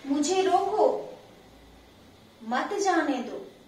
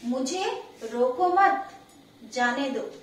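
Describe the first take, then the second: First: There is a pause right after 'roko'. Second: There is a pause right after 'mat'. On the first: "यानी मुझे रोक लो मत जाने दो" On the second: "जब अल्प विराम चिन्ह यहाँ पर लगाया है"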